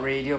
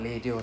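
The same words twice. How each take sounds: First: The first sound is an English-style R. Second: The first sound is close to an L. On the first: The speaker calls it wrong. "It's not it's not radio" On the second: The speaker calls it right. "Usually we pronounce as L sound"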